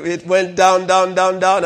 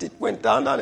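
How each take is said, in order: First: Each "down" louder and lingering; dramatic "down, down, down"; drawn-out down down down. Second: Said in the usual way. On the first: Shown as a demonstration. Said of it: "and he was laughing". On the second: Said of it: "he laughed and laughed".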